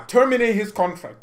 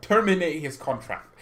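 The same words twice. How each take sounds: First: Shouted, higher and louder; furious demand. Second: Said in the usual way. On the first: Acted. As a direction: bark the order at the club. Angry fan ranting.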